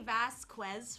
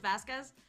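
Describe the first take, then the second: First: The name is said with heavy, exaggerated emphasis. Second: The name is said plainly, with light emphasis. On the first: The speaker calls it wrong. "they emphasize it too much" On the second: The speaker calls it right. "instead of just Vasquez"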